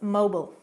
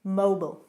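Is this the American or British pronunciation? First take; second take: American; American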